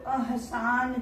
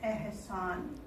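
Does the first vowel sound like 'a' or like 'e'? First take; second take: a; e. First: The first vowel sounds like a plain 'a'. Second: The first vowel sounds like 'e'. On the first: "अहसान जो है" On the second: "अ को हम ए की तरह यहाँ pronounce करेंगे"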